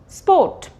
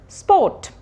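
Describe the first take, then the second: No difference in how they are said.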